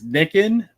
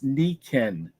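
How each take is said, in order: First: The first syllable sounds like nick. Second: The first syllable sounds like knee. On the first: The speaker calls it wrong. "it looks like it says Nicken" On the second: The speaker calls it right. "you say the I is an E and the E is an A"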